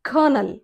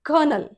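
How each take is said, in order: First: It is said as two syllables, 'ker-nel'. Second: The same.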